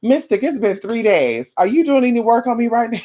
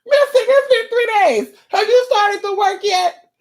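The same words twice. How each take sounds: First: Nagging client. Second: Very high squealed caller impression; mock the impatient client in a squeaky voice; nagging client. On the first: Acted. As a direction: lightly mimic an impatient caller. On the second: Client phoning Mystic after three days, squeaky nagging. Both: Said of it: "You might wanna pick up the phone".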